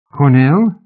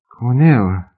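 First: Cornell asked high and loud, rising; surprised question. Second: Said in the usual way. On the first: A narrator's reading. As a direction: ask Cornell in sharp disbelief. Stunned disbelief at the name.

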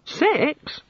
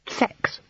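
First: Very high, startled question; astonished echo. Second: Unvoiced, embarrassed near-whisper. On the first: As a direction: echo the word as a naive, amazed god. The god echoes, astonished. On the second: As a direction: let the awkward word out barely voiced. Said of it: "feeling a blush start". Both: A narrator's reading.

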